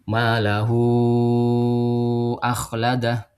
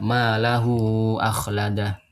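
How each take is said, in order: First: The vowel after 'lahu' is held longer. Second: The vowel after 'lahu' is held briefly. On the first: This is the medium tawassut reading. "ini bacanya tawasud ya" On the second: This is the short qasr reading. "dibacanya dua harokat saja"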